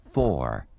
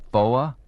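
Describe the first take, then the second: First: Said in the usual way. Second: Four said as foa, the r dropped, a little higher and louder; Southern foa. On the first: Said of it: "should practice saying four instead of". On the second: Shown as a demonstration. Mocking a Southern CB'er's r-less foa. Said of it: "a Southern Beaver should practice saying four instead of".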